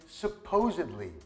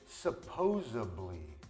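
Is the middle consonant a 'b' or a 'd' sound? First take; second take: d; b. First: The word has a 'd' sound in the middle. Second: The word has a 'b' sound in the middle. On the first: The speaker calls it right. "The next one is supposedly" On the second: The speaker calls it wrong. "some Americans pronounce it supposedly, but that's not even a word"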